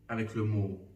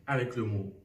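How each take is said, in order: Both takes have the same delivery.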